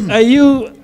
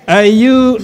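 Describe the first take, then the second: No difference in how they are said.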